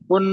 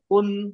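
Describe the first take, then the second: First: The word is said quickly and clipped. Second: The word is said slowly, holding the final sound. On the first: The speaker calls it wrong. "कुन नहीं, जल्दी नहीं" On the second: The speaker calls it right. "थोड़ा टाइम लो। साकिन में टाइम लो"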